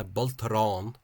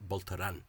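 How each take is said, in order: First: "Boltaran" ending in a long "on", loud and drawn out; preserved long "on". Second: "Boltaran" ending in short "an" rather than "on"; expected Ulster variant. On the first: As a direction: model "Boltaran" slowly with a full final "on". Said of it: "notice the interesting preservation of on there". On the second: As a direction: say "Boltaran" with an unlengthened final "an". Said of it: "as you might expect from other areas". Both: Shown as a demonstration.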